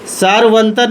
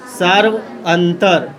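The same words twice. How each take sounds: First: Said in the usual way. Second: "सार्वंतर" drawn out in two parts, "सार्व" then "अंतर"; slow breakdown. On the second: Shown as a demonstration. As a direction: split "सार्वंतर" slowly for the class, falling at the end. Breaks the term down for students. ("सार्वंतर" को धीरे-धीरे "सार्व" और "अंतर" में तोड़कर)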